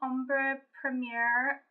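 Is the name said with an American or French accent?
American. The name is said with an American accent.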